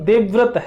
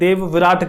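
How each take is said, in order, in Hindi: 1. v और r ध्वनियाँ बिना किसी स्वर के एक-दूसरे से जुड़ जाती हैं। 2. एक अतिरिक्त स्वर v और r ध्वनियों को अलग कर देता है। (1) "मेरा नाम देवव्रत है" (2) "जैसे बहुत से लोग ले लेते हैं देव विराट कर देते हैं"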